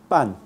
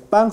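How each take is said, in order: First: "pan" ending on a clean n; alveolar final n. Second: "pan" closed with an ng sound; velar final n. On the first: Teacher shows class standard Spanish, alveolar "pan". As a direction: end "pan" with tongue tip behind the teeth. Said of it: "Es alveolar". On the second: Teacher shows class the non-standard velar "pan". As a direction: end "pan" at the back of the tongue. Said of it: "en español no es pan". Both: Shown as a demonstration.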